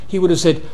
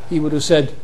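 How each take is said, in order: The two takes are said the same way.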